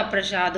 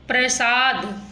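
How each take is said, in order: First: प्रसाद lower, with "sh" in the middle; contrasting sibilant. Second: प्रसाद with "s" in the middle; wrong sibilant. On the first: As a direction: say प्रसाद as "pra-shaad". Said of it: "प्रसाद होता है". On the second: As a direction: say प्रसाद as "pra-saad". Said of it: "प्रसाद नहीं होता". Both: Shown as a demonstration.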